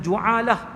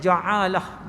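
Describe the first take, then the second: First: The first vowel is a u sound. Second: The first vowel is an a sound. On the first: "baris depan" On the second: "dengan baris atas"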